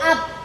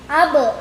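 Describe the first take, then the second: First: The final consonant stops without any release. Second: The final consonant is released with a bounce. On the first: The speaker calls it wrong. "tidak boleh kita baca" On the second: The speaker calls it right. "harus kita pantul"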